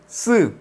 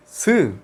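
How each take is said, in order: First: S said as a strong tense Korean double S, pitched higher; S mucho más fuerte. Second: Said in the usual way. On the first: Shown as a demonstration. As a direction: hit the S hard and tense, like "ss". (S pronunciada mucho más fuerte y tensa) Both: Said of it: "Lo pronunciamos mucho más fuerte".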